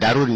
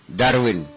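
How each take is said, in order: First: It is said with a long 'u' sound: Da-run. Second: It is said with a 'w' sound: Dar-win. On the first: The speaker calls it wrong. "bukan Darun ya" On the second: The speaker calls it right.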